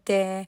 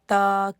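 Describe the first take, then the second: First: The vowel is fronted, sounding like 'e'. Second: The vowel is a flat, open 'aa' sound. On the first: The speaker calls it wrong. "ये यूं नहीं करना" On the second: The speaker calls it right. "बिल्कुल सीधी सीधी वाली आवाज़ है"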